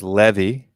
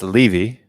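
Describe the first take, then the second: First: "Levy" as LEH-vee with a short e; Korean-style Levy. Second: "Levy" with a long ee in front; Levy as LEE-vee. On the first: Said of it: "this is how they say it in Korean". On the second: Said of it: "And that's Levy". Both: Shown as a demonstration.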